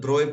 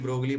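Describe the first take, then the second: First: The name ends with an 'oy' sound. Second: The name ends with a 'glee' sound. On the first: The speaker calls it right. "इसको as a ब्रोय pronounce किया जाता है" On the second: The speaker calls it wrong. "हम इसको ब्रोगली ब्रोगली पढ़ते हैं"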